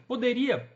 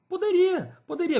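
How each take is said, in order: First: Said in the usual way. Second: Poderia said much higher and louder, emphatic; a firm, high Poderia, poderia; emphatic yes. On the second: Real, not acted. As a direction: answer her own question with a burst of certainty. Emphatic self-answer to own question.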